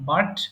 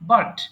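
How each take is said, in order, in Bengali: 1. শেষে শুধু একটি 't' ধ্বনি। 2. শেষে শুধু একটি 't' ধ্বনি।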